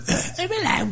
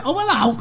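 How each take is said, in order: First: Squeaky, very high mock-Welsh "Oh, hello" with a laugh; failed Welsh accent. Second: High, sing-song Welsh "Oh, hello"; Welsh women's greeting. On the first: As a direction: try to copy the Welsh greeting and miss. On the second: Retold or imitated. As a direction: greet them like the Welsh women did, pitched up. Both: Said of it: "I never sounded Welsh there".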